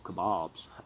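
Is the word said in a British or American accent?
American. It is said in an American accent.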